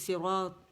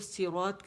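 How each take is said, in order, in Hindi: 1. पहला s भारी और ज़ोर वाला है। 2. पहला s हल्का और सादा है। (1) "सिरात थी" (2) "ता कर दिया"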